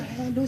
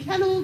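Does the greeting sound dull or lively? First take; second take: dull; lively. First: The greeting is flat and low in energy. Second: The greeting is bright and energetic. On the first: The caller seems sad or uninterested. The speaker calls it wrong. "I don't like when I go" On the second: The caller is friendly and engaged. The speaker calls it right. "It's important to be vibrant"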